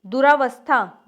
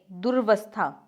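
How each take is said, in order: First: दुरावस्था with long "raa"; incorrect form. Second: दुर्वस्था without long "raa"; correct form. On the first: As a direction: say दुरावस्था as "duraa-vastha". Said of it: "नहीं, दुर्वस्था". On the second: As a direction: say दुर्वस्था as "dur-vastha". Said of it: "नहीं". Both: Shown as a demonstration.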